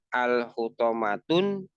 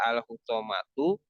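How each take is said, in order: First: The word ends with an added n sound. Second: The word ends on a vowel, no n. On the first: The speaker calls it wrong. "itu enggak boleh" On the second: The speaker calls it right. "harus satu harokat"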